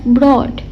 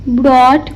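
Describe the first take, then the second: Both takes have the same delivery.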